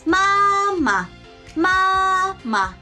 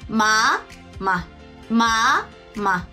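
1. 音が高いまま平らです。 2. 音が中くらいから高くに上がります。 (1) "一声と形成" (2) "二声形成"

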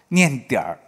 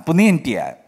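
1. 这个词要儿化，还要读轻声。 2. 这个词念本音，不儿化。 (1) "念点儿。这个我们中文里面它是轻声的"

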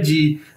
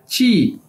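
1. यह अंग्रेज़ी के j जैसी घोष ध्वनि से शुरू होता है। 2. यह अघोष ch जैसी ध्वनि से शुरू होता है। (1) "इंग्लिश में देखें तो इसको कैसे बोला जाता है" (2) "चाइनीज में इसको बोला जाता है ची"

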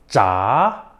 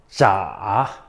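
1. 2성으로 발음해요. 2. 3성으로 발음해요. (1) "이성" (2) "삼성"

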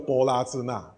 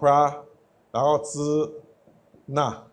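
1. 每个音节分开念，bo 和 la 分开。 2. 前两个音节合成一个，pra。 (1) "就一个字一个字念" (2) "他会把这两个字连起来"

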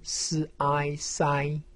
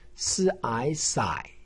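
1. 音高保持高而平。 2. 音高先降到低，再升起来。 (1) "一声" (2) "三声"

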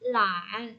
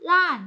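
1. เสียงต่ำลงแล้วขึ้น 2. เสียงตกอย่างรวดเร็วจากสูง

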